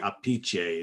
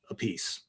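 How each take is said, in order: First: The surname has a traditional Italian pronunciation. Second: The surname sounds like the English words 'a piece'. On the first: This is the family's traditional pronunciation. "it should be Apice, is usually is the way it should be uh, traditionally said" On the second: This pronunciation follows the spelling so people get it right. "just pronounce it the way it's spelled"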